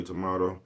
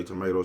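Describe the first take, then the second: First: Tomato said with "ah": to-MAH-to; tomato with the open A of "father"; tomato, tuh-MAH-doe; the ah version. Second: Tomato said with "may": to-MAY-to; tomato with the long A of "day"; tomato, tuh-MAY-doe; the may version. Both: Shown as a demonstration. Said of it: "some people say tomato".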